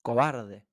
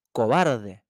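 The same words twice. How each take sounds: First: The mountain throwing the insult back; echo reply. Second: A touch of anger, louder; annoyed boy shouting an insult at the echo; angry shout. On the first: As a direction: give it back flatter, like an echo. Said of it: "recibió por respuesta un". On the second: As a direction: snap the insult out at the mountain. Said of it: "Enojado con la contestación, exclamó". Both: A narrator's reading.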